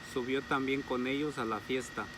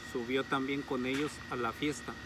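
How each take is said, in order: Both takes have the same delivery.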